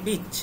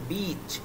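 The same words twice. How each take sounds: First: The vowel is short and clipped. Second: The vowel is long and drawn out. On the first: The listener hears a word for a female dog. The speaker calls it wrong. "তখন speaking এর ক্ষেত্রে তখন এটা কিন্তু ভুল" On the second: It means a seashore. The speaker calls it right. "একটু টেনে উচ্চারণ হচ্ছে"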